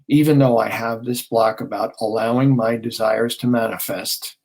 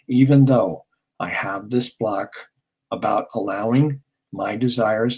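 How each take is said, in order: First: It is said a little fast. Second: It is said slowly.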